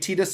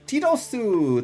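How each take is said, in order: First: The name is said as two English syllables. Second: The name is said with Japanese-style syllables. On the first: "So maybe Tidus is right" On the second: "the Japanese dub pronounces his name as Tidosu"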